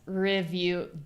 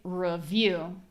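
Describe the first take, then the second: First: The first vowel is reduced to an I. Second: The first vowel is reduced to a schwa. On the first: "You could hear an I sound" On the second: "I pronounce those both as schwa"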